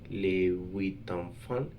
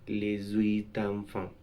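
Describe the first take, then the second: First: Les and huit are said without a linking sound. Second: A z sound links les to huit. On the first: The speaker calls it right. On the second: The speaker calls it wrong.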